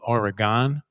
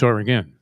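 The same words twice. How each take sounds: First: The name is said the common outsider way. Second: The name is said the local Oregon way. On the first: The speaker calls it wrong. "most people call it Oregon" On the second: The speaker calls it right. "but it's Oregon"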